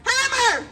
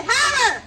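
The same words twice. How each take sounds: First: Said in the usual way. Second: Real shout to spur the class; yelled command. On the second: Shown as a demonstration. Instructor urges the class to yell back, yelled command. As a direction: yell the drill word out. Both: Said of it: "Yell it".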